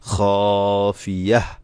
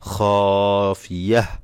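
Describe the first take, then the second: First: The word ends with a stopped h sound. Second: The same.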